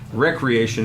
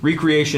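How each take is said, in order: First: The first syllable sounds like 'wreck', short e. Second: The first syllable sounds like 'ree', as in re-create. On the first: It means leisure or enjoyment. The speaker calls it right. "Recreation is the word" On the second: It would mean creating something again. The speaker calls it wrong. "recreation is not a word"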